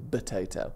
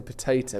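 First: "potato" said as "batato", softer and lower. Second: Said in the usual way. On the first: Shown as a demonstration. Co-host mocks host's speech, "potato" starting with a B. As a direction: open "potato" on a B sound. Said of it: "you say potato". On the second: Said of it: "instead of saying potato".

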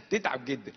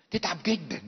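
First: Repeated through a laugh. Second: Said in the usual way. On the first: Real, not acted. Preacher laughs about the hurt wife, chuckling. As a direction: say it again, chuckling.

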